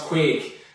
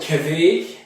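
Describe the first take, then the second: First: It sounds like the English word 'quake'. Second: It is read as spelled, like 'kveik'. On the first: "I guess it's pronounced Quake" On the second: "I first saw it, I said Kveik, because it's K V E I K"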